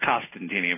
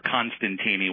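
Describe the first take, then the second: First: No n sound follows the first vowel. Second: An n sound follows the first vowel. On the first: The speaker calls it right. "where it's Costantini" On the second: The speaker calls it wrong. "messing up my last name"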